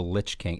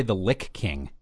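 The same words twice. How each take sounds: First: "Lich" rhyming with "which"; "Lich" with a ch ending. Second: Hard k ending on "Lich", like "lick". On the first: Host reading out an expansion title, "Lich" ending in ch. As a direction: say "Lich" ending in a soft ch sound. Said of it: "how to pronounce that". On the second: Host rejecting the weird-sounding version, "Lich" pronounced "lick". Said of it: "I don't like to say the Lick King". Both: Shown as a demonstration.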